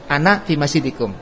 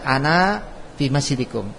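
First: The word ana is said with a short final vowel. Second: The word ana is said with a long final vowel. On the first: The speaker calls it right. "maka dibaca pendek" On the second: The speaker calls it wrong. "Andaikan alif itu dibaca, maka dibacanya"

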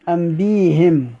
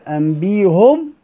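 First: The vowel after the h is i. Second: The vowel after the h is u. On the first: "كسر الهاء" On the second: "ضم الهاء"

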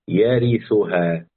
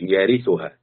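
First: Each letter is given its own vowel distinctly. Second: The letters and vowels are run together. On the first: The speaker calls it right. "تاخد كل حرف لوحده" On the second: The speaker calls it wrong. "ما تقولش يارثها"

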